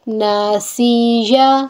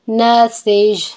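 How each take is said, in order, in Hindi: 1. शब्द एक खुले स्वर पर खत्म होता है। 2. शब्द अपने अंतिम व्यंजन पर रुकता है।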